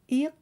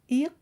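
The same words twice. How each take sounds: The two takes are said the same way.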